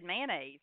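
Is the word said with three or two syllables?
two. It is said with two syllables, Southern style.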